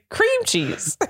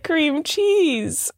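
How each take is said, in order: First: "cream cheese" in mimicked misplaced emphasis; imitating his cream cheese. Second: "cream cheese" higher, with a drawn-out fall on "cheese"; her stress on cream cheese. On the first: Wife imitating husband's version, "cream cheese" oddly stressed. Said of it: "And you're saying". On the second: Shown as a demonstration. Wife showing her own way, stressing "cheese". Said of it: "what are you saying?".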